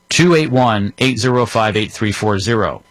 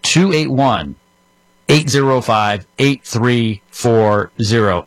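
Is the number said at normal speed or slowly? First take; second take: normal; slowly. First: It is said at a normal speed. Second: It is said a little more slowly.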